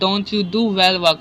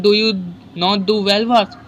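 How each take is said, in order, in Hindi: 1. Do not को contract करके एक syllable में बोला जाता है। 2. Do not पूरा बोला जाता है, बिना contract किए। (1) "आप यूँ कहोगे" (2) "आप यूँ थोड़ी बोलेंगे"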